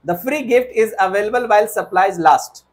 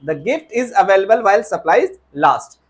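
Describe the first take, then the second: First: Slow, deliberate wrong sentence; slow wrong version. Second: Slow, careful correct sentence; slow corrected version. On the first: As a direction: read the wrong sentence out slowly. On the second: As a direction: model the right sentence slowly. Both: Shown as a demonstration.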